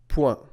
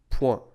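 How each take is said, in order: No difference in how they are said.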